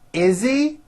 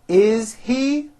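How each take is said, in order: First: The words are reduced and run together. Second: Each word is said fully and separately.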